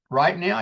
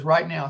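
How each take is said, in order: First: "Right now?" as a surprised question, rising at the end. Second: "Right now" as a firm answer, falling tone; confirming RIGHT NOW. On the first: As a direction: ask "Right now?" back with a lift on "now". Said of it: "And I said". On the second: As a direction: confirm "Right now" evenly, without a questioning lift. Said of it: "He goes". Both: Retold or imitated.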